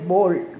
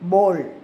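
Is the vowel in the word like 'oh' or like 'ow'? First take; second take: oh; oh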